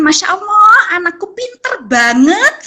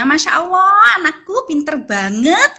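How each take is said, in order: First: Higher admiring exclamation, slow praise after; mother praising a busy toddler; praising child. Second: Proud parent cooing praise; praising child. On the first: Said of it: "kita bisa mengucapkan". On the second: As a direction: gush over the child's good work. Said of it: "memberikan reward ya". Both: Shown as a demonstration.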